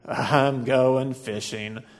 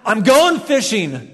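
First: It sounds sad and gloomy. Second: It sounds frustrated and exasperated.

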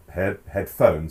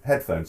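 First: The stress is on the second syllable. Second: The stress is on the first syllable. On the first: The speaker calls it wrong. "it's not headphones" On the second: The speaker calls it right. "it's headphones"

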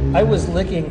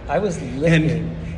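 First: The phrase is spoken at a normal pace. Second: The phrase is spoken slowly and drawn out.

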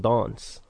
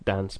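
First: It is said in a transatlantic accent. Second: It is said in the speaker's normal accent.

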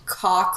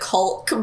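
First: The word is said with no L sound. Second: The word is said with an L sound. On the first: "say it the actual way" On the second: "I always pronounce it Kulk"

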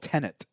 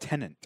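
First: It does not sound like the surname Tennant. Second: It sounds like the surname Tennant. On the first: The speaker calls it right. "It's called Tenet" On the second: The speaker calls it wrong. "The movie is not called Tenet. ... Not David Tenet"

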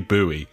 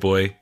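First: The word is said as two syllables, 'boo-ee'. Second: The word is said as one syllable, like 'boy'. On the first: This is the American way to say it. "But the Americans, I believe, say buoy" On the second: This is the British way to say it. "They don't pronounce it boy"

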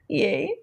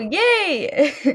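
First: The word is said flatly, without excitement. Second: The word is said brightly, with excitement.

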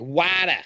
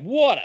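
First: It is said in a Boston accent. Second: It is said in a New York accent.

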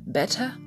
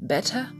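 First: It is said in a British accent. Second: It is said in a British accent.

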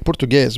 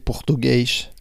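First: It is said in the speaker's home accent. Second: It is said in a Rio accent.

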